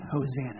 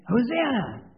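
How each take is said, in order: First: Said in the usual way. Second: Hosanna! called out high and loud; shouted Hosanna. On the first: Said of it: "let's try that a little bit harder". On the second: Shown as a demonstration. Pastor leading children, loud shout. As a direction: call out Hosanna! like a cheering crowd. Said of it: "I want you to scream out".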